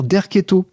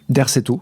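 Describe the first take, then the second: First: The middle consonant is a k sound. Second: The middle consonant is an s sound. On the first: This is the pronunciation the name should have. The speaker calls it right. "il semblerait en fait qu'il faille dire Derketo" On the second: This is how the game's voice actors said it. The speaker calls it wrong. "tous les doubleurs du jeu Alone in the Dark prononcent Derceto"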